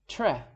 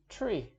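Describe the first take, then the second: First: It ends in a short e, not ee. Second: It begins with tr and ends in long ee. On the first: The speaker calls it wrong. "That's the wrong pronunciation" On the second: The speaker calls it right. "pronounced correctly"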